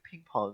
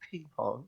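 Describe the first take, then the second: First: It is said in a plain English accent. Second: It is said in a put-on Chinese accent. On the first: "It's like ping pong" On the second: "or as the Chinese called it"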